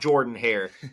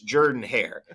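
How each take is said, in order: First: The first vowel of Jordan sounds like 'or'. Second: The first vowel of Jordan sounds like 'er'. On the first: The speaker calls it wrong. "It's not Jordan Hare" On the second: The speaker calls it right. "there's an O there, just pretend it's an E"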